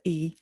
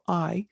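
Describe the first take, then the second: First: The name is pronounced like "ee". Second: The name is pronounced like "eye". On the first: The speaker calls it right. "instead of E" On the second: The speaker calls it wrong. "I'm mispronouncing A I as I"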